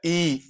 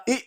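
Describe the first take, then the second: First: ई stretched out into a long "eee"; a long, held ई; long vowel. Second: ई cut short, as a quick "i"; short vowel. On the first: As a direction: draw ई out with extra energy. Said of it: "खींच के पढ़ा जाता है". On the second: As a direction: say ई briefly, without stretching it. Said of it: "इसको थोड़ा खींच के". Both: Shown as a demonstration.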